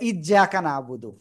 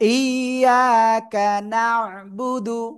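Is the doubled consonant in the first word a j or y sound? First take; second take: j; y. First: The doubled consonant sounds like a j. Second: The doubled consonant sounds like a y. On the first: The speaker calls it wrong. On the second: The speaker calls it right.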